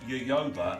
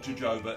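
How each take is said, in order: First: The word begins with a Y sound. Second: The word begins with a J sound. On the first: The speaker calls it right. "it's yoyoba" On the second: The speaker calls it wrong. "it's not jojoba"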